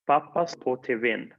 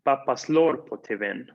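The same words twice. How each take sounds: First: "Papas po te ven" con acento en po, el verbo y la partícula separados; stress on po, separate particle. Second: "Papaslorpo" de un solo golpe, acento en el verbo; stress on papaslorpo, joined. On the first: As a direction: marca "po" aparte, sin pegarlo al verbo. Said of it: "Papá enciende el televisor". (pronuncia "po" separado y acentuado) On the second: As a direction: une "papaslorpo" en una palabra acentuada. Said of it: "Papá, pues, golpea el televisor". (pronuncia "Papaslorpo" todo junto) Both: Shown as a demonstration.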